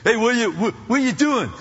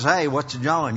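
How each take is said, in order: First: Imitated East Coast greeting; stammered East Coast street hello; East Coast accent. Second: Imitated US Southern accent. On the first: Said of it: "must be from the East Coast". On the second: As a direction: put on a casual Southern greeting. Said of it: "they're from the South somewhere".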